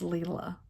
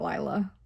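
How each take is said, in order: First: The first vowel sounds like 'ee'. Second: The first vowel sounds like 'eye'. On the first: The speaker calls it right. "it's Leela" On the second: The speaker calls it wrong. "Her name is not Lila"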